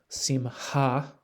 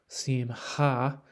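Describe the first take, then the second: The two takes are said the same way.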